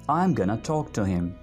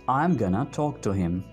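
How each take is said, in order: No difference in how they are said.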